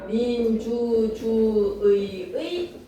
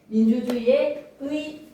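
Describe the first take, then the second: First: Every 의 keeps the full 'ui' sound. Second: The fourth syllable is said 'i', particle 'e'. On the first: This is the standard pronunciation by rule. "의가 원칙이야" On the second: This is the permitted, easier pronunciation. "이라고 발음하면 되는 거지"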